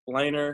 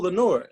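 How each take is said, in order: First: The name ends with a 'ner' sound. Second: The name ends with a 'nore' sound. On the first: The speaker calls it wrong. "is that Laner?" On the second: The speaker calls it right. "Thank you for pronouncing that right"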